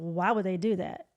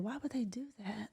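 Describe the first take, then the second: First: It sounds judgmental and dismissive. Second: It sounds curious and compassionate.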